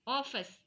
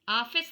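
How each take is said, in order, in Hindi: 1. पहला स्वर गोल खुला 'aw' ध्वनि है। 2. पहला स्वर सादा खुला 'aa' ध्वनि है।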